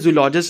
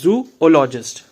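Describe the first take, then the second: First: The two o's merge into one 'zoo' syllable. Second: The two o's are said as separate syllables. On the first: The speaker calls it wrong. "कई बार लोग क्या करते हैं? जूलॉजिस्ट इसको बोल देते हैं" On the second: The speaker calls it right. "इसका जो करेक्ट प्रोनाउंसिएशन है"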